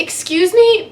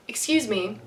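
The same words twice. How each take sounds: First: Sharp, higher, louder excuse me; accusatory. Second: Said in the usual way. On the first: Retold or imitated. Fan stopping the actor sounds accusatory. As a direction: call out excuse me like a scolding. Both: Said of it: "might have come out, like, a little accusatory".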